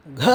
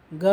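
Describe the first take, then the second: First: Breathy gha with a heavy puff on க; க as an effortful "gha"; aspirated voiced க. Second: Soft voiced ga with little air on க; க voiced, no puff; unaspirated க. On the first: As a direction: push air through a voiced க. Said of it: "அதிகமாக காற்றை எடுத்து". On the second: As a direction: say க as an easy "ga". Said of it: "குறைந்த காற்றை வைத்து எளிதாக". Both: Shown as a demonstration.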